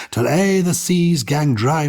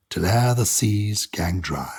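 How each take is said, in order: First: Till e'er the seas gang dry raised higher, slow and louder; lifted repeat. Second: Said in the usual way. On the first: Acted. Poet repeating the line to co-host, swelling slowly. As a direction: let the repeat swell with feeling. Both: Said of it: "read it with my English accent".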